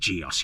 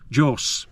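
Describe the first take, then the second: First: The name is said with an English pronunciation. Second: The name is said with an Italian pronunciation. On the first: "I'm going to say Gios" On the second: "the Italian pronunciation of the company is more like Jos"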